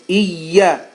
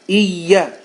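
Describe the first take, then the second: The two takes are said the same way.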